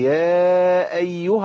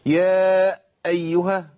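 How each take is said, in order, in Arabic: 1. الكلمات تتصل بسلاسة دون وقف. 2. يوجد وقف قوي قبل الهمزة. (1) "على طول، ما توقفش قبل الهمزه ابدا" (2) "شددت الهمزه"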